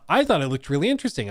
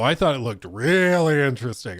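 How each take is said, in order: First: It is said in a sincere, genuine tone. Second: It is said in a mocking, sarcastic tone. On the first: The commenter truly liked it. "if I should read it as uh" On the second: The commenter actually disliked it. "Or, oh"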